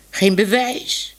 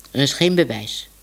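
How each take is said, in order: First: "Geen bewijs?" slow, rising up high at the end; disbelieving echo. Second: Said in the usual way. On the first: Acted. Minoes repeats Tibbe's words, slow and rising in disbelief. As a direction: echo it back as if it can't be true.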